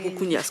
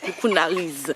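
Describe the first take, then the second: First: The name ends with an 'ias' sound. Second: The name ends with an 'ariz' sound. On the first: The speaker calls it wrong. "pas Coucounias" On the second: The speaker calls it right. "Ah oui"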